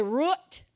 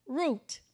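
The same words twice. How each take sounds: First: "root" said with misplaced emphasis. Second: Said in the usual way. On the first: Shown as a demonstration. Preacher showing a learner's slip, misplaced emphasis on "root". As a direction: stress the wrong part of "root". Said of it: "you're gonna say root instead of root". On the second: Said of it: "instead of root".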